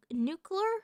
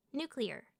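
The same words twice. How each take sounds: First: "nuclear" with the klee squashed to kler; nuclear as NOO-kler. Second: "Nuclear" as new plus clear, quietly; nuclear as NOO-klee-er. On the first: Trying another way, "nuclear" said as NOO-kler. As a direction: say "nuclear" without the EE sound. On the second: Testing the word softly, "Nuclear" said as NOO-klee-er. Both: Shown as a demonstration. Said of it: "how else do you say it?".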